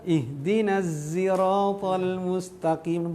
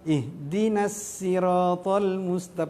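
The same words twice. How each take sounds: First: The word siratal starts with a z sound. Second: The word siratal starts with a plain s. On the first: "Yang ketiga pakai za" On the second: "pakai sin"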